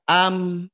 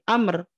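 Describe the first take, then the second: First: The final r sound is left out. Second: The final r sound is clearly pronounced. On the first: The speaker calls it wrong. "Tidak dibaca am. Roknya itu dihilangkan" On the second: The speaker calls it right. "Nah ini amr"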